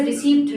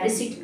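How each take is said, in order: First: "रिसीप्ट" with a sounded p; mispronounced receipt. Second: "रिसीट" with the p left out; correct receipt. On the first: Teacher warning against a slip, receipt with p. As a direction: keep the p audible in "रिसीप्ट". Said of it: "गलत तरीके से". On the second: Teacher naming the wanted form, p-less receipt. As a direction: go from ee straight to t in "रिसीट". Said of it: "गलत तरीके से रिसीप्ट ना निकल". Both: Shown as a demonstration.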